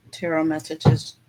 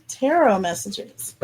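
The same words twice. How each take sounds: First: Said in the usual way. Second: Goofy. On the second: Pretend. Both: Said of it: "I'm being silly".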